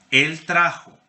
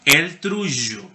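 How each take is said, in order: First: Said in the usual way. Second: Él trullo, slowly, the J in trullo a buzzing zh; medieval trullo, slow. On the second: Shown as a demonstration. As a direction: model the old form trullo with a buzzing J, slowly. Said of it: "Por qué él pronuncia la J en, en trullo de esa manera".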